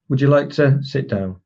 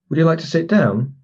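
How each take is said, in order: First: The voice falls at the end, with a pause. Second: The voice rises at the end. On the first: It is given as a command. "if it goes down at the end, it becomes a command. And if you put the pause in there as well" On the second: It is asked as a question. "if the phrase goes up at the end, it's a question"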